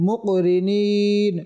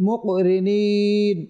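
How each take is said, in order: Both takes have the same delivery.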